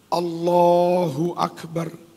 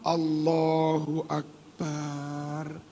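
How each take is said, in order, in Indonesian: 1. Vokal pada bar pendek. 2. Vokal pada bar dipanjangkan. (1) "Seharusnya begitu" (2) "Tambah batal. Bar dipanjangkan"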